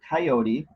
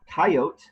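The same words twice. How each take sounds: First: Three syllables, stress on the second, soft T. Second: Two syllables, stress on the first one. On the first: The speaker likely grew up urban and leans progressive. "with a soft T sounding like, like a D and an accent on the second syllable" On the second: The speaker likely grew up rural and leans conservative. "dropping the final syllable and putting an accent at the beginning of the word"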